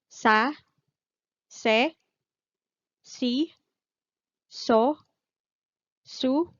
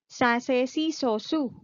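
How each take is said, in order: First: The syllables are said at a slower pace. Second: The syllables are said at a faster pace.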